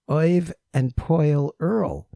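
The names are said in a Brooklyn accent.

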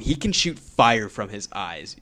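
It sounds awed and emphatic. It is treated as a huge deal. The speaker calls it right. "Like, no"

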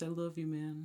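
It is said in a slow, stoned-sounding drawl.

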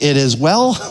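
The voice rises at the end. The speaker doubts whether all is well. "Like, is it really well? I'm not sure if it's well"

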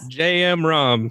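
The name is said with an American pronunciation. "Just say it like an American"

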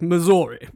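It is said like an old British man.

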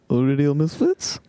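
The voice rises at the end, sounding confused.

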